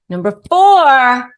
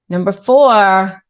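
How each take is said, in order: First: Louder, higher, slow; emphatic announcement. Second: Said in the usual way. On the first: Shown as a demonstration. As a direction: announce it with weight. Repeated with more emphasis.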